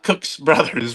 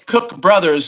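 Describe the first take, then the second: First: Cook is said with an s sound after it. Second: Cook is said with no s sound after it. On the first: The speaker calls it wrong. "not Cook's Brothers" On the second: The speaker calls it right. "it's Cook Brothers"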